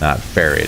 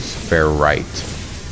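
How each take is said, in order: First: The second syllable sounds like 'ret'. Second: The second syllable sounds like 'right'. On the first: The speaker calls it wrong. "it sounded like I was saying ferret dust" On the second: The speaker calls it right. "I've always called it ferrite dust"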